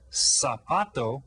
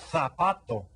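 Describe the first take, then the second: First: The z is pronounced like an s sound. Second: The z is pronounced like a th sound. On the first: This is the Latin American pronunciation. "the Spanish that we're learning here" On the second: This is the Castilian pronunciation from Spain. "the Z sound is pronounced as T H"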